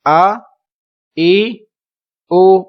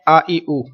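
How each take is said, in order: First: آ، ای، او each said apart with a pause between; separate syllables. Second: آ، ای، او strung quickly into one breath; run together. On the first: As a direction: give each vowel its own beat. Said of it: "الگ الگ پڑھنا ہے". (آ، ای، او الگ الگ پڑھنا) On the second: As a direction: show the common mistake. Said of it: "تو یہ درست نہیں ہوگا". (آ، ای، او کو ملا کر جلدی پڑھنا) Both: Shown as a demonstration.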